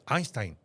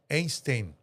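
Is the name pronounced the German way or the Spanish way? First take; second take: German; Spanish. First: The name is read with German sounds and diphthongs. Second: The name is read with Spanish letter sounds. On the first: "es Einstein, por el diptongo" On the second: "lo voy a decir en español"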